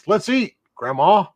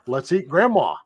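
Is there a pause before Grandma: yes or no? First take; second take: yes; no. First: There is a pause before Grandma. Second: There is no pause before Grandma.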